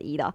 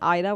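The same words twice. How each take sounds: First: The name has its Swedish pronunciation. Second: The name has an English-style pronunciation. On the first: "in Sweden we pronounce uh, pronounce it as Ida" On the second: "being said Ida when I'm over here"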